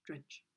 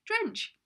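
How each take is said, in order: First: Gloomy, flat. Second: Happy attempt. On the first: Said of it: "can't say it in a happy way". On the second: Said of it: "Just try". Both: Shown as a demonstration.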